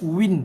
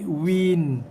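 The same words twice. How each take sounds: First: It sounds like the everyday Malay word. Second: A clear one-beat vowel comes before the n. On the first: The speaker calls it wrong. "Bukannya dia baca dengan win" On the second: The speaker calls it right. "tapi win. Satu harakat dulu"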